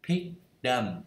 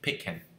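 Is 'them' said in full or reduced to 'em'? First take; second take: full; reduced. First: 'Them' is said in full with its th sound. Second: 'Them' is reduced to a short 'em'.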